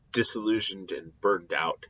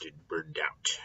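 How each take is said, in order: First: Said in the usual way. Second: Hushed, worn-out whisper. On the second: Shown as a demonstration. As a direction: drop to a weary whisper. Teacher describing Koheles burned out in old age.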